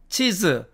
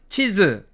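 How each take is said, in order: The two takes are said the same way.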